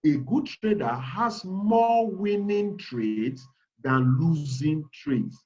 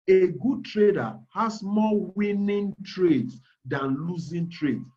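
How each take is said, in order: First: Said in the usual way. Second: Slow, measured, every word placed; careful, deliberate wording. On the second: Shown as a demonstration. To seminar students, choosing words carefully and slowly. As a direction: weigh each word so no one is misled. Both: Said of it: "I'm careful picking my words".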